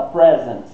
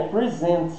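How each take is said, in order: First: "present" stressed on PRE, as the noun; first-syllable stress. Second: "present" stressed on SENT, as the verb; second-syllable stress. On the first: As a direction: hit PRE in "present", short e as in "press". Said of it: "a sílaba tônica é a próxima". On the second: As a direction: say "present" as pri-ZENT. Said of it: "apresentar é present". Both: Shown as a demonstration.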